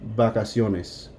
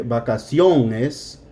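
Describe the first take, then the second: First: The word is said evenly without exaggerated accent. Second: One syllable carries a strong, exaggerated accent. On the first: The speaker calls it right. "It's just vacaciones" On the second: The speaker calls it wrong. "you're not going to say vacaciones"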